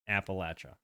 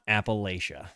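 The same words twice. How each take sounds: First: It uses the local Southern mountain pronunciation. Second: It uses the widespread, non-local pronunciation. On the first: This is how locals say it. The speaker calls it right. "we would say" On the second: This is how outsiders say it. The speaker calls it wrong.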